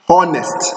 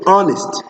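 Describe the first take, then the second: First: The word begins with an audible H sound. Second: The word begins with a vowel, no H. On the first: The speaker calls it wrong. "not honest" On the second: The speaker calls it right. "No, honest"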